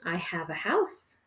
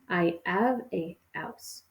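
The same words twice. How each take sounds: First: The h sounds at the word starts are pronounced. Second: The h sounds at the word starts are dropped. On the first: "we have the sentence" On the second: "can sometimes be pronounced as"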